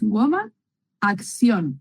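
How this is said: The last word is pronounced the Spanish way. "pero es acción en español"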